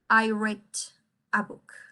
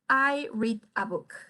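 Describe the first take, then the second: First: The verb is said with a short e vowel. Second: The verb is said with a long ee vowel. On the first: The reading happened in the past. "si es en el pasado, lo voy a pronunciar como el color rojo" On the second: The reading happens in the present. "Cuando es en el presente, lo pronuncio como read"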